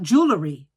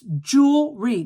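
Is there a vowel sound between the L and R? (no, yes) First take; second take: yes; no. First: An extra vowel comes between L and R. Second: The L runs straight into the R sound. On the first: The speaker calls it wrong. "There is no E after the L" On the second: The speaker calls it right.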